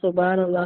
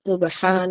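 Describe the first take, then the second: First: The h is a plain, light sound. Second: The h is a breathy sound from the throat. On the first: The speaker calls it wrong. "ഇങ്ങനെയല്ല" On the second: The speaker calls it right. "ആ തൊണ്ടയിൽ നിന്നുള്ള ആ ഒരു അക്ഷരം"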